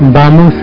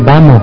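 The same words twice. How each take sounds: First: The final S is pronounced. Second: The final S is dropped. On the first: The speaker calls it right. "no dice vamos" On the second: The speaker calls it wrong. "sino que dice vamos"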